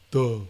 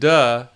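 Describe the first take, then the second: First: It sounds dark and dopey, with the larynx lowered. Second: It sounds bright, with the larynx held high. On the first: The speaker calls it right. "with that dopey duh sound, it drops" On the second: The speaker calls it wrong. "Not duh, duh, it won't go in, the larynx stays stays there"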